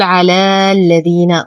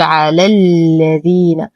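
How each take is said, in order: First: Stretched "aa" in على before الذين: "alaa-lladhiina"; mistaken long vowel. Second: Short "a" in على, straight into a held l: "alal-ladhiina"; dropped long vowel. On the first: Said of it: "وهذا خطأ". (نطق على الذين بمد الألف خطأً) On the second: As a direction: clip the end of على into الذين. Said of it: "حرف المد يسقط بسبب التقاء الساكنين". (نطق على الذين بإسقاط الألف) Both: Shown as a demonstration.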